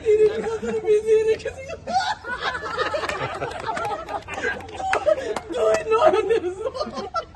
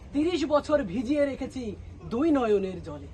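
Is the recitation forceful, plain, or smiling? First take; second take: smiling; plain. First: It is recited through a smile or laugh. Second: It is recited in a plain, ordinary way. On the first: Someone who always laughs is reciting. "প্রথমে সে এসে একটা হাসি দিছে" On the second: An ordinary person is reciting. "সাধারণ একজন এসে কবিতা আবৃত্তি করতেছে"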